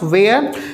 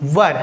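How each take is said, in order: First: The vowel sounds like 'air'. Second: The vowel sounds like 'her'. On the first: The speaker calls it wrong. "It is not pronounce वेयर" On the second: The speaker calls it right. "But it is pronounce वर"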